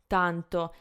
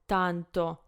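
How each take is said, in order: No difference in how they are said.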